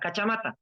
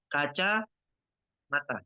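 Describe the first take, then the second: First: It is said without any pause inside. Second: It is said with a pause between parts. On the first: The speaker calls it right. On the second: The speaker calls it wrong.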